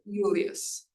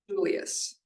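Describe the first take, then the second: First: The word begins with a Y sound. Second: The word begins with a J sound. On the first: "or Julius" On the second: "and Julius"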